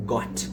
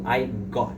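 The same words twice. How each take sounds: First: Said in the usual way. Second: "got" sem soltar o T final; T final omitido. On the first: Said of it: "o T no final do got". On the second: Shown as a demonstration. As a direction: diga "got" quase como "gó", sem o T. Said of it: "eu não tô falando". ("got" com o T final mudo)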